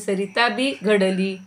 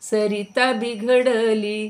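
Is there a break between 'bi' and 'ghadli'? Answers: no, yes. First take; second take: yes; no. First: There is a break after 'bi'. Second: It is said as one word, without a break. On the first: The river too was shaped and made whole. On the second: The river was spoiled.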